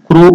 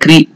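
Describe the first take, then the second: First: The k is followed by an u vowel. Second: The k is followed by an i vowel. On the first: "not Krishna or Krushna" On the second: "not Krishna or Krushna"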